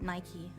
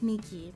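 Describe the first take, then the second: First: The name is said like the shoe brand. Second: The name is not said like the shoe brand. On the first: The speaker calls it wrong. "I pronounce it Nike. It, like the shoe" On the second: The speaker calls it right. "so I should know it's pronounced Nikki"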